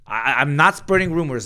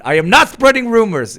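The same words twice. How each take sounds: First: Higher, louder protest; raised defensive insistence. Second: Much higher, much louder laughing protest; near-yelling denial; shrieking denial. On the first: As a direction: insist you're not gossiping. Defends against a rumor charge. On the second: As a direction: shriek "I am not spreading rumors" in mock outrage. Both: Real, not acted.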